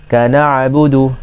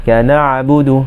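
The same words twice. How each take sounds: No difference in how they are said.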